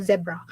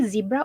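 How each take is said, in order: First: "zebra" with a short e, ZEB-ra. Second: "zebra" with a long ee, ZEE-bra. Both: Shown as a demonstration. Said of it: "do you say zebra or zebra".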